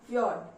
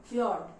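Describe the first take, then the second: No difference in how they are said.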